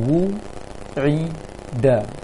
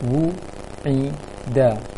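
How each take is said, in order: The two takes are said the same way.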